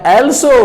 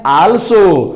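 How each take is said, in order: First: Also with a long aw vowel, British style; British pronunciation. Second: Also with an open ah vowel, American style; American pronunciation. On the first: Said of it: "British English में बोला जाता है". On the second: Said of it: "American English में बोला जाता है". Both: Shown as a demonstration.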